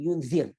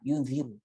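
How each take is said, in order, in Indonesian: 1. Kata ini tidak berakhir dengan vokal. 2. Kata ini berakhir dengan vokal u. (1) "Baris mati" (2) "ru ru ru ru ru pada depan"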